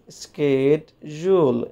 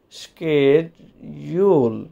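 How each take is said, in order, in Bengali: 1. এটি আমেরিকান উচ্চারণে বলা হয়েছে। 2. এটি আমেরিকান উচ্চারণে বলা হয়েছে।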